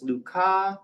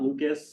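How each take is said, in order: First: The name is said with a French pronunciation. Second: The name is said with an American pronunciation. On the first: The speaker calls it right. "we pronounce this Lucas" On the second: The speaker calls it wrong. "not Lucas. That's an Americanization"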